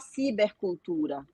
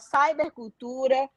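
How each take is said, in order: First: The first part sounds like Portuguese 'ciber'. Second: The first part sounds like English 'cyber'. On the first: The whole word is said in Portuguese. "a gente também pode falar... falar tudo em português" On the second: The word mixes English and Portuguese. "se a gente fosse falar em inglês, seria cyber culture... e a gente mistura"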